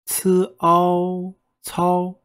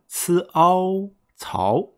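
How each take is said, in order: First: Ci Ao Cao all high, slow and level; flat first tone. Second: Ci Ao slow and level, then Cao rising; ascending tone demo. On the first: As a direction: hold Cao flat after Ci Ao. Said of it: "a much flatter sound because it's in the first tone". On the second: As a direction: draw out Ci Ao, then lift Cao. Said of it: "which is ascending". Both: Shown as a demonstration.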